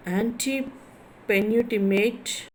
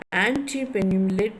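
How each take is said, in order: First: Antepenultimate slowly, in separate chunks; slow breakdown. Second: Said in the usual way. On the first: Shown as a demonstration. Teacher spelling out a term for students, antepenultimate slowly broken up. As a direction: stretch out antepenultimate, pausing after "ante". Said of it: "third from the end". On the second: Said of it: "are stressed on the antepenultimate".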